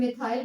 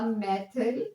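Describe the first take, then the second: First: It is said as 'mith-ile' with a long ending. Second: It is said as 'meh-thil' with a short ending. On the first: "या फिर मिथाइल भी पढ़ते हैं इसको" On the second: "इसका नाम बन जाएगा मैथिल"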